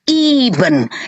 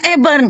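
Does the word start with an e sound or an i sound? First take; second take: i sound; e sound. First: The first vowel sounds like i. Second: The first vowel sounds like e. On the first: The speaker calls it right. "Baca Ibn" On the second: The speaker calls it wrong. "lu baca Eben. Katrok lu"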